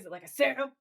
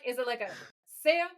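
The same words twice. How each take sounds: First: It is said in an angry tone. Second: It is said in a casual, friendly tone.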